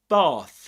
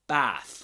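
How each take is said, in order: First: The vowel is long and open, like father. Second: The vowel sounds like the vowel in cat. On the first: "But in British English" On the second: "with this vowel sound as, you know, similar to the one found in cats"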